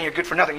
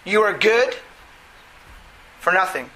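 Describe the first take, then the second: First: The phrase runs on without any pause. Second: A pause breaks the phrase before 'for nothing'. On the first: The person is worthless. "I'm not saying you're good for nothing" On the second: Acting generously brings no reward. "Notice the pause there"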